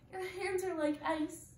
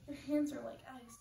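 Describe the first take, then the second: First: The voice sounds regal and dignified. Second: The voice sounds evil and menacing. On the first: "I will be doing my royal voice" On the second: "now I will be doing my evil monologue"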